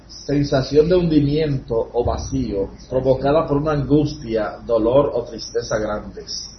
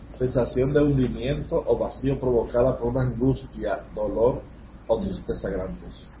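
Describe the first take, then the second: First: It is read louder and harder. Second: It is read at normal volume.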